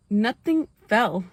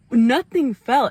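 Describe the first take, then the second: First: Slow emphasis. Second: Louder punched nothing fell; loud emphasis. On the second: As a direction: hit nothing fell hard. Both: Shown as a demonstration.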